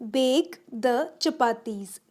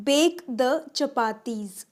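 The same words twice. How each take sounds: The two takes are said the same way.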